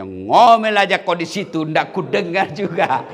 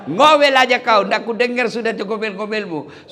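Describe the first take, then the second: First: Louder, slow, half-laughing taunt; mock the wife down in the well; husband gloating over the well, mildly. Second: Higher and louder gloating; husband yelling down the well at his wife; louder taunt. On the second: Retold or imitated. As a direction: shout it down the well. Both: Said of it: "Dia bilang suaminya".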